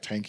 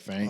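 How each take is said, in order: First: The word begins with a plain T sound. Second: The word begins with a TH sound. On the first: The speaker calls it wrong. "I can't say not like T H's" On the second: The speaker calls it right. "instead of like thank"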